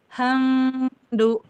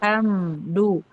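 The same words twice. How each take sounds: First: The m is hidden and only faintly nasal. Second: The m is pronounced fully and clearly. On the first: "Kalau dia ikhfa" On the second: "Itu kan idhar"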